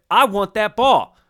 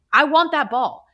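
First: Loud, high demand; hammed-up sports-pundit outburst; Stephen A Smith. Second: Straightforward, higher and louder claim; frank admission. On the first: Star demanding the game ball, hammed-up sports-pundit impression. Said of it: "to channel our Stephen A Smith". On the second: Retold or imitated. Telling the star to just say it, frank admission. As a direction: own up to it firmly, in your own voice. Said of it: "Just say it. Just be like".

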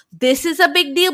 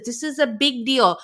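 First: "big deal" pushed higher and louder, rising; louder, higher outraged retake of "This is a big deal"; rising, indignant "This is a big deal"; mock indignant repeat. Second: Said in the usual way. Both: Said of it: "the way she says".

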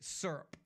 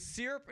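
First: "syrup" with an "ur" sound, run into one syllable; SURP pronunciation. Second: "syrup" with "ee" in the first syllable; SEER-up pronunciation. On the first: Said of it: "is it syrup?". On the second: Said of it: "How many of y'all refer to it as". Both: Shown as a demonstration.

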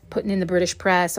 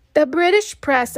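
First: Said in the usual way. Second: British press said higher and louder, with scorn; scornful emphasis. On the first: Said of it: "the British press, of course". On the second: Shown as a demonstration. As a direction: hit British press hard and mocking. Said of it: "of course".

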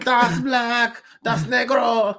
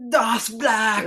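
First: Higher, loud furious German shouting; angry German accent. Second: Higher, loud sputtering German; angry German accent. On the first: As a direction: bellow it like an enraged dictator. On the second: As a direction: shout it like a furious Hitler. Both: Retold or imitated. Hitler voiced, fist shaking.

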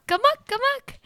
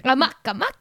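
First: Silly high-pitched repeat; high squeaky amok. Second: Said in the usual way. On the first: Pretend. Repeating the word playfully.

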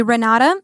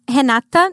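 First: Renata said the English way, with an R at the start; English pronunciation. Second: Renata said the Portuguese way, opening on an H sound; Portuguese pronunciation. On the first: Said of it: "but in English would be". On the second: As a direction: say Renata with a breathy Brazilian H for the R. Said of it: "That's how I pronounce in Portuguese". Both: Shown as a demonstration.

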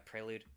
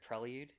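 First: "prelude" as PRAY-lood; corrected pronunciation. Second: "Prelude" as PRELL-yood, questioning; butchered pronunciation. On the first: Real, not acted. Game master confirming the word to a co-host, "prelude" as PRAY-lood. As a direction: say "prelude" with PRAY first and no y-glide. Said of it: "I don't know how to pronounce it". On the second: Shown as a demonstration. Game master replaying their slip to a co-host, "Prelude" as PRELL-yood. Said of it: "God, I butchered that word".

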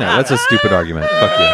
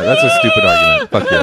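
First: Mock angry shout. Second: Much higher squeaky redo of the comeback; same insult in a cartoon squeak; squeaky mock retort. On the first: Mock argument, repeated. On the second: Redoing the friend's comeback as a high squeak.

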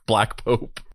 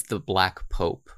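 First: Exploitation film title. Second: Dark and ominous. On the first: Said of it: "think of it like it's an exploitation film". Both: Shown as a demonstration.

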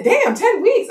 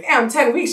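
First: Very high-pitched amazement; mom's astonished echo. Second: Higher-pitched amazed reaction; retold surprise. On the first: Retold or imitated. Mom echoes her daughter's news, high astonished voice. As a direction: imitate mom echoing in shock. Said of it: "She said". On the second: Daughter telling mom how far along, mildly amazed. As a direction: lightly act out being taken aback. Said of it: "I was like".

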